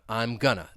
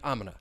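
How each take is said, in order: First: Going to is shortened to gonna. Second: The phrase is squeezed into one short syllable. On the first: "going to may get reduced to gonna" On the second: "reduce I'm gonna even further"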